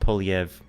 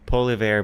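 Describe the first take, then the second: First: The name ends without the r sound. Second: The name ends with a pronounced r sound. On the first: "but it's pronounced Poliev" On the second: "Dude's name is Poliver"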